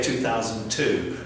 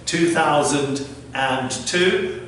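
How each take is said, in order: First: The year is said in an American way. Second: The year is said in a British way. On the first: "I think in America they say" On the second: "this is how we say it in British English"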